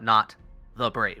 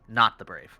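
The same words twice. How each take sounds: First: There is a pause after the word 'Not'. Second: The words run together with no pause. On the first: The speaker calls it wrong. "there's no comma. It's not" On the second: The speaker calls it right. "It's Not the Brave"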